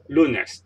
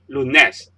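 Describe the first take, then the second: First: The stress is on the first syllable. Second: The stress is on the last syllable. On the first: The speaker calls it right. "it's lunes. The stress is on the second last syllable here" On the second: The speaker calls it wrong. "You don't say lunes"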